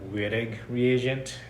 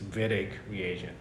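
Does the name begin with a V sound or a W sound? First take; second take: W sound; V sound. First: The name begins with an English W sound. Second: The name begins with a V sound. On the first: The speaker calls it wrong. "oftentimes people uh, mispronounce this like" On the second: The speaker calls it right. "the W is pronounced as a V"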